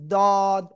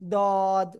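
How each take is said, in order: The two takes are said the same way.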